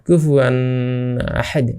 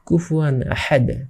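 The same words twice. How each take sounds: First: The n is nasalized and held before ahad. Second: The n is plain with no held nasal. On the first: The speaker calls it wrong. "এরকম করা যাবে না" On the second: The speaker calls it right. "গুণা ছাড়া এরকম ভাবে পড়তে হবে"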